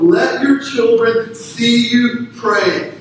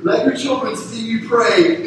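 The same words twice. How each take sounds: First: Preacher's slow emphatic restatement; slow emphatic repeat. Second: Said in the usual way. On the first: Shown as a demonstration. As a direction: drive home "your", slow and deliberate.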